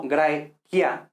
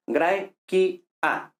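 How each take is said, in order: First: "quia" en una sola sílaba; diptongo a la española. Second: "qui, a" en dos sílabas, con hiato; i y a separadas. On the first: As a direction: junta la i y la a de "quia". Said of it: "como en español". ("quia" con diptongo, como en español) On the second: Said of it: "hemos dicho que i, a no son diptongo". (pronunciar "qui, a" sin diptongo, sílaba a sílaba) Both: Shown as a demonstration.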